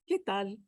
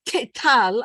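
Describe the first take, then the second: First: "¿Qué tal?" soft, the t of "tal" with no puff of air; unaspirated tal. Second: "¿Qué tal?" with a loud, breathy puff on the t of "tal"; aspirated tal. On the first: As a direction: say "tal" with a clean Spanish t. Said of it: "No aspiration". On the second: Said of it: "I don't say". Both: Shown as a demonstration.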